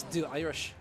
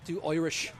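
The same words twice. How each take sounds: First: Said in the usual way. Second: "Irish" said as "Oirish" in an Irish accent. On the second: Shown as a demonstration. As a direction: put on an Irish accent, "Oi" opening "Irish". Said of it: "hear me do".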